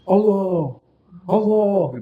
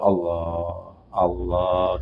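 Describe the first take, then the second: First: It is said loudly, almost shouted. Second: It is said softly and gently.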